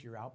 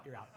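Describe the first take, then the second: First: Loose. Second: A clipped, final "you're out" with weight on "you're"; firm. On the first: Dad's deal with college son, loosely tossed off. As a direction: toss off "you're out" lightly, half joking. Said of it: "it was kind of a loose". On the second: Dad's deal with college son, said firm and final. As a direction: land "you're out" like a verdict. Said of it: "but it was a pretty firm". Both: Shown as a demonstration.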